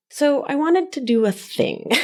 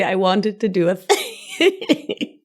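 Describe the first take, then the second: First: Said in the usual way. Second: Slow, giggling repeat of the phrase; laughing through it. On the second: Real, not acted. Host repeating her silly phrase, laughing slowly. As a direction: say it again while cracking up. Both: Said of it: "What a silly thing to say".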